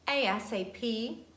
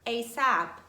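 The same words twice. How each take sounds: First: Each letter is pronounced separately. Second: It is pronounced as a single word.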